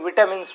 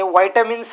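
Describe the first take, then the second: First: The first syllable sounds like 'vit'. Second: The first syllable sounds like 'vye'. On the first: This is how listeners usually say it. "ज्याला तुम्ही विटॅमिन्स म्हणता" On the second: This is the proper way to say it. "Perfect pronunciation"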